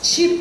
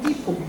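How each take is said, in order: First: The first consonant sounds like 'ch'. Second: The first consonant sounds like plain 't'. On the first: This is how people in Minas say it. "aqui em Minas a gente fala" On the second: This is how it is said elsewhere in Brazil. "Com esse t"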